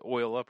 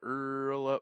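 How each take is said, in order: First: The first word is pronounced like "oil". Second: The first word is pronounced like "earl". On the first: The speaker calls it wrong. "You said it wrong" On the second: The speaker calls it right.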